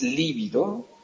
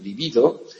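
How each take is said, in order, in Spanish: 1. El acento está en la primera sílaba. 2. El acento está en la segunda sílaba. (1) "No es líbido, y con V, que significaría quedarse pálido" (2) "sino libido, pronunciado de esta manera"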